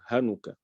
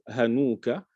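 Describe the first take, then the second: First: The vowel after the n is short. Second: The vowel after the n is lengthened.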